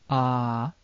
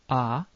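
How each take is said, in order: First: The vowel is held for a long time. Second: The vowel is held very briefly. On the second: "It can appear short"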